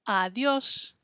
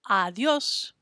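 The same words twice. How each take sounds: The two takes are said the same way.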